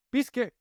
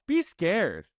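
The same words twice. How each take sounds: First: Said again much higher, urging; emphatic higher repeat. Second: Said in the usual way. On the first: Shown as a demonstration. Coach urging a client to act scared. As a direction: push it up as a rallying cry. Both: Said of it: "If you won't do it for yourself".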